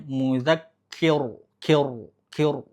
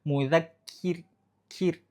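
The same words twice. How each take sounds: First: Mudzakir with a heavy dark kir; thick mudzakir. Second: Mudzakkir slow, kir light and thin. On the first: Teacher showing the wrong thick ro. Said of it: "jangan sampai bacanya". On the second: Teacher showing the thin ro. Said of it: "harusnya tipis". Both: Shown as a demonstration.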